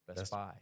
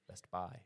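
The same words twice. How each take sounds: First: The stress falls on the second word. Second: The stress falls on the second word.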